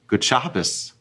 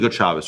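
First: The greeting sounds warm and sincere. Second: The greeting sounds grudging and sarcastic. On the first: The speaker is genuinely glad to see the person. The speaker calls it right. "without sarcasm and without it being a dig" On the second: The speaker greets without real goodwill. The speaker calls it wrong. "You can say it like that"

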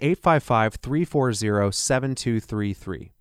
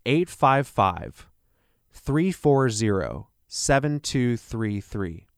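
First: The number is said at normal speed. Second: The number is said more slowly.

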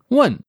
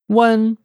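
First: It has the intonation of an exclaimed 'shit'. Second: It has the intonation of a plain 'yeah'.

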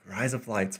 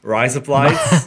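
First: It is said in a plain American accent. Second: It is said in an Australian accent.

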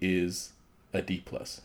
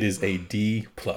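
First: It is said at a normal, quieter volume. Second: It is said at a louder volume.

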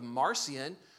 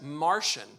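First: The name does not sound like Martian. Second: The name sounds just like the word Martian. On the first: "a man by the name of Marcion" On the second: "who you can also pronounce as Martian"

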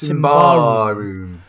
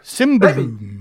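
First: The stress falls on the second syllable. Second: The stress does not fall on the second syllable. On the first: The speaker calls it wrong. "a lot of people who put the emphasis on the second syllable" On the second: The speaker calls it right.

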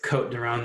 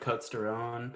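First: The S in Côtes is silent. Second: The S in Côtes is pronounced. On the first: The speaker calls it right. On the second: The speaker calls it wrong.

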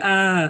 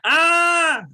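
First: It is a quiet, weak shout. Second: It is a loud, strong shout.

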